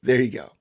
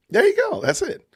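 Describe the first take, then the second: First: Said in the usual way. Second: Jumps much higher, playful; high squeaky "There you go". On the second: Pretend. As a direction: pop it up high like a cheer. Same words said twice.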